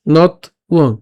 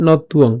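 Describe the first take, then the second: First: "নথ উয়ং" in two parts, not, pause, uong; split syllables. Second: "নথ উয়ং" joined as not-tuong; said together. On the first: Teacher takes the word apart, separated syllables. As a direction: break "নথ উয়ং" apart after the t. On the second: Teacher puts the parts together, linked pronunciation. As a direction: link the t of "নথ উয়ং" into "uong". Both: Shown as a demonstration. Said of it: "একসাথে উচ্চারণ করলে".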